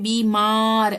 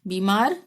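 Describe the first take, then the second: First: The second vowel is stretched out long. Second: The second vowel has its normal length. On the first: The speaker calls it wrong. "बीमार ऐसे नहीं बोल रहे" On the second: The speaker calls it right. "बीमार आराम से बोल रहे हैं ना"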